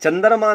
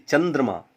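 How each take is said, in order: First: चंद्रमा as chandarma, vowel before the 'r'; mispronounced word. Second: चंद्रमा with a joined 'dr', chandrama; correct pronunciation. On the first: Teacher mimicking a common slip, चंद्रमा as chandarma. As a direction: split the cluster in चंद्रमा to 'dar', pitched up. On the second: Teacher correcting the slip, चंद्रमा as chandrama. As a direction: say चंद्रमा with no vowel between 'd' and 'r'. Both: Shown as a demonstration. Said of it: "उच्चारण संबंधी अशुद्धियां".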